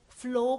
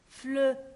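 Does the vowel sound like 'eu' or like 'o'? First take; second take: o; eu. First: The vowel sounds like an o. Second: The vowel sounds like a French eu. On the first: The speaker calls it wrong. "comme la lettre O. Non" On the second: The speaker calls it right. "c'est comme la lettre E"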